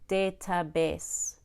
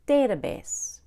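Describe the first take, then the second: First: The stress falls on a later syllable. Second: The stress falls on the first syllable. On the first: The speaker calls it wrong. "Notice I did not say database" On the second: The speaker calls it right. "I said database"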